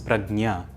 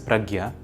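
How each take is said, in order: First: The middle cluster sounds like gn. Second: The middle cluster sounds like gy. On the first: This is how a Telugu speaker reads it. "if you were a native Telugu speaker, you might have read it as Pragnya" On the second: This is how a Hindi speaker reads it. "if you were a native speaker of Hindi, you might have read it as Pragya"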